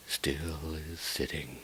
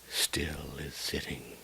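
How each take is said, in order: Both takes have the same delivery.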